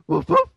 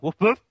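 First: The barks sound more like a real dog. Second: The barks sound weak and unlike a dog.

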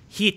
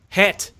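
First: The vowel is said in a New Zealand way. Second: The vowel is said in an Australian way. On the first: "is Kiwi" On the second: "that's Australian"

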